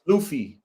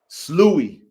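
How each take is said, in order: First: The middle of the word has an f sound. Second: The middle of the word has no f sound. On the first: The speaker calls it wrong. "G H like a f, like tough?" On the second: The speaker calls it right. "Like he"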